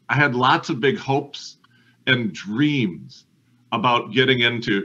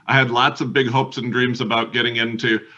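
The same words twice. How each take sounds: First: Hopes and dreams are drawn out longer. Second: Hopes and dreams are said short and quick.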